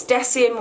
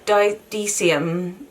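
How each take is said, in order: First: Deciem said DESS-ee-um; short E at the start of Deciem, as in "dress"; first pronunciation. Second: Deciem said DEE-see-um, after a false start; long EE opening Deciem, tried hesitantly; alternative pronunciation. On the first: Vlogger guessing a brand name, Deciem said DESS-ee-um. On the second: Vlogger unsure of brand name, Deciem said DEE-see-um. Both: Shown as a demonstration. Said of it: "I don't know how to pronounce it".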